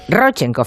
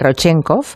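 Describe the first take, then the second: First: The stress falls on the first syllable. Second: The stress falls on a later syllable. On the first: The speaker calls it right. "ese es drújula la palabra" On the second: The speaker calls it wrong. "no se dice Rodchenkov"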